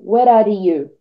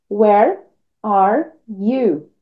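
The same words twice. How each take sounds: First: The words are run smoothly together. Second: The words are said separately, not linked. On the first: The speaker calls it right. "Então você tem que juntar" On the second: The speaker calls it wrong. "Porque senão vai ficar assim"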